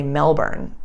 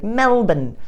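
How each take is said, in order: First: Said in the usual way. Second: MELBOURNE said "MEL-bn", pitched up then falling; mock "MEL-bn" for MELBOURNE; clipped-ending Melbourne. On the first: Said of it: "if I say Melbourne". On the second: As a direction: swallow the end of MELBOURNE to "MEL-bn", mimicking others. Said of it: "all of a sudden be like".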